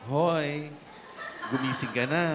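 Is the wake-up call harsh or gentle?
gentle. It is said in a softer, gentler tone.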